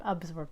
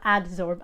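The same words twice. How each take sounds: First: "absorb", B before the S, quietly corrected; correct pronunciation. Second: "adsorb", a D in place of the B; mispronunciation demo. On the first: Correcting a listener on the word, "absorb" with a B. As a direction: say "absorb" with a B, softer and lower. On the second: Correcting a listener on the word, "adsorb" with a D. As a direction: say "adsorb" with a clear D. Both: Shown as a demonstration. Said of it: "Not adsorb, absorb".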